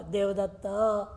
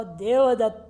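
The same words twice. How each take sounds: First: Said in the usual way. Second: देवदत्त with the last vowel drawn out long; prolated call. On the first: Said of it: "मैं सामान्य रूप में उच्चारण करूँगा". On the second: Shown as a demonstration. Teacher to class, देवदत्त with its last vowel drawn out. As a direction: stretch the final vowel of देवदत्त as a distant call. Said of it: "प्लुत बोला".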